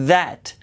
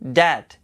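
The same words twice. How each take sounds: First: It starts with a th sound. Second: It starts with a d sound. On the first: The speaker calls it right. "poniendo la lengua en medio de los dientes" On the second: The speaker calls it wrong. "lo pronuncian con una D"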